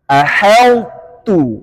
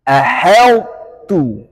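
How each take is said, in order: No difference in how they are said.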